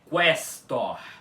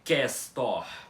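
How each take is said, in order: First: The u after the q is pronounced. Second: The u after the q is silent. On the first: The speaker calls it right. "é questor" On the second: The speaker calls it wrong. "não é questor com o U mudo"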